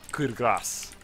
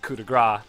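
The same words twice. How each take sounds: First: The final s of grace is pronounced. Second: The final s of grace is silent. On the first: The speaker calls it right. "it's coup de grace. With a, with a s" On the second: The speaker calls it wrong. "it's not pronounced coup de grace"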